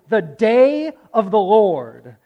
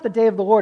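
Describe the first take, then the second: First: The phrase is said with heavy, weighty emphasis. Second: The phrase is said plainly, without special weight. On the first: It is a unique, momentous day. The speaker calls it right. "so that the capitals come out even in your voice" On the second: It is just any ordinary day. The speaker calls it wrong. "it's not"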